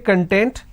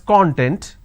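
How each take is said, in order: First: The stress is on the second syllable. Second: The stress is on the first syllable. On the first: It means being happy. "this means being happy" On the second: It refers to ingredients or an index. "when I pronounce this as con, content, it means ingredient or index"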